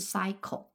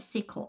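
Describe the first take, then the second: First: The first vowel is a long ai sound. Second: The first vowel is a short i sound. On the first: The speaker calls it wrong. "而不是cycle" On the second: The speaker calls it right. "注意在这2 个词里面y 都又发成了i"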